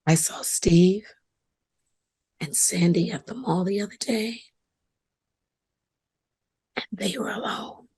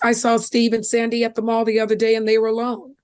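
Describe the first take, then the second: First: It is said in a knowing, suggestive tone. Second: It is said in a flat, casual tone. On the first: Something improper may be going on. "Same words, different tone" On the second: Nothing unusual happened. "big deal. People go to the mall all the time"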